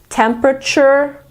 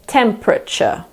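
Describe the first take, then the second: First: American accent, with the final R pronounced. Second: British accent, second E silent, no final R. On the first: "Some Americans say temperature ... in American English, you pronounce the R at the end" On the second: "In British English, we pretend that the second E isn't there. We say temperature"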